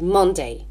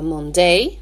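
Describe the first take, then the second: First: The stress is on the first syllable. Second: The stress is on the second syllable. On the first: The speaker calls it right. "on doit insister sur la première syllabe" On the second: The speaker calls it wrong. "on ne dit pas Monday"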